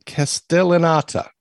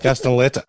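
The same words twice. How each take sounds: First: Castellanata ending in "AH-ta"; mispronounced name. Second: Castellaneta ending in "ETT-a"; corrected pronunciation. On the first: Proudly trying out how to pronounce it, mispronounced name. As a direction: say Castellanata slowly, with "ah" before the final ta. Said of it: "taught me how to pronounce". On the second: Repeating the co-host's correction, corrected pronunciation. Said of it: "it's actually Castellaneta". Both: Shown as a demonstration.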